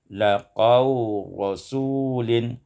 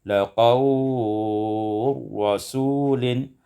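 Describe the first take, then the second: First: The prolonged vowel is held short. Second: The prolonged vowel is held medium length.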